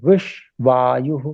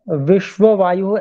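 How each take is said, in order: First: It has no extra syllable in the middle. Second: It has an extra 'va' syllable in the middle. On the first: The speaker calls it right. "तो उसको बोलना है विश्वायु" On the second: The speaker calls it wrong. "यहाँ पर विश्व वायु ऐसा कुछ उच्चारण सुनने में आ रहा है आपका"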